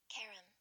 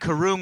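First: The second vowel is a short 'uh' sound. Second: The second vowel is a long 'oo', like room. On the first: The speaker calls it right. "It's like Karen, but with an M at the end" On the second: The speaker calls it wrong. "it's not karoom would be two O's, right? Like room"

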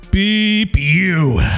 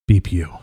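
First: It is said in a normal voice. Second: It is said in a low, sensual voice.

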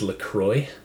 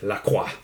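First: The name is said with an American pronunciation. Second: The name is said with a French pronunciation. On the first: "That'd be the American pronunciation" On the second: "I'm half French-Canadian, so I have to say it"

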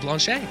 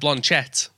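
First: The surname is not read letter by letter. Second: The surname is read letter by letter as spelled. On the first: "Did I say your surname right? / It was perfect" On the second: "We always pronounce either everything as it is, so I'd normally say"

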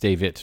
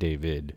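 First: The word ends with a 't' sound. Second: The word ends with a 'd' sound. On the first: The speaker calls it right. "It ends with IT" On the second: The speaker calls it wrong. "not ID"

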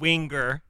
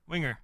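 First: The 'ing' and G are said heavily. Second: The 'ing' and G are said lightly. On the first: The speaker calls it wrong. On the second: The speaker calls it right.

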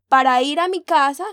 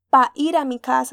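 First: The first word is said in full, standard style. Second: The first word is clipped, costeño style.

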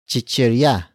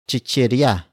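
First: The word begins with a ch sound. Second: The word begins with a ch sound.

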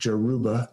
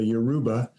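First: The word starts with a 'j' sound. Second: The word starts with a 'y' sound. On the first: "sometimes I've heard it pronounced like Jaruba" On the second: "the Yoruba"

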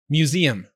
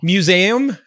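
First: The end has a clear 'z-um' sound. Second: The end lacks a clear 'z-um' sound. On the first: The speaker calls it right. "There you go!" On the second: The speaker calls it wrong. "that's not how you say that word"

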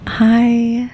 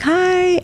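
First: It is said in a sultry voice. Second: It is said in her normal voice.

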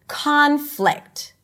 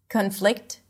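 First: One syllable is longer and higher than the other. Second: Both syllables are equally long and equally high. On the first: The speaker calls it right. "we want to stretch that syllable and say it a little higher in pitch and sometimes a little louder" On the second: The speaker calls it wrong. "Korean speakers might not distinguish the primary stress and all syllables might sound the same"

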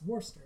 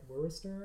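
First: The name is said in a short, reduced form. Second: Each part of the name is fully sounded out. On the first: The speaker calls it right. "it's actually pronounced Worcester" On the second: The speaker calls it wrong. "phonetically, I would read that as like Worcester"

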